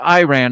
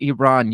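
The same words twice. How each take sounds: First: The first vowel sounds like 'eye'. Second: The first vowel sounds like 'ee'. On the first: The speaker calls it wrong. "called it Iran" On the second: The speaker calls it right. "It's actually Iran"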